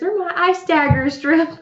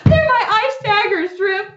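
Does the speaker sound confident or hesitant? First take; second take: hesitant; confident. First: It is said hesitantly, without much confidence. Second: It is said boldly, with clear confidence.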